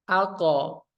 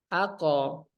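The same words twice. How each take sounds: No difference in how they are said.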